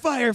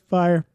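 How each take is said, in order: First: It is said with urgent excitement. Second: It is said with flat indifference.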